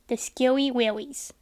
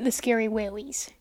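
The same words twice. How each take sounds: First: Slow, drawn-out spooky voice. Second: Said in the usual way. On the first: Shown as a demonstration. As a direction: savour it like a campfire ghost story. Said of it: "But I did get the scary willies".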